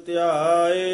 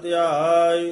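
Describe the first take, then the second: Both takes have the same delivery.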